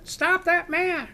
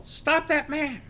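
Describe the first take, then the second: First: High, slow, loud retold scream. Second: High, slow mock yell for help. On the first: Bank teller screams again after the man, high loud scream. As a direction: shriek it again even louder, desperate. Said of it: "she screams". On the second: Woman outside the bank yells after the robber, high mock yell. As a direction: shout it out to stop a fleeing man. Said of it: "I hear this voice yell".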